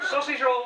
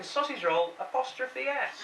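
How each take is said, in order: First: "roll" punched, as if it owns the shop; mocking stress on "roll". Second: Sausage roll apostrophe S, spelled out slowly; slow, deliberate "sausage roll apostrophe S". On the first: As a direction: hit "roll" loud and high. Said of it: "as if the sausage roll actually owns the shop". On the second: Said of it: "But she'd written". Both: Shown as a demonstration.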